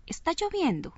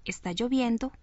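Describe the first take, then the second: First: "¿está lloviendo?" asked, pitched up on "lloviendo"; question tune. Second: Said in the usual way. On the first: Shown as a demonstration. Teacher shows a question's tune after a statement. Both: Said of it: "no es lo mismo decir".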